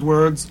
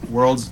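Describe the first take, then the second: First: Words in place of worlds, no l before d; dropped l. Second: Worlds with the l sounded before d; corrected l. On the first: Slip while describing games, words without the l. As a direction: leave the l out, say words. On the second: Taking co-host's correction, worlds with its l. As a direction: put the l back in worlds. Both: Real, not acted.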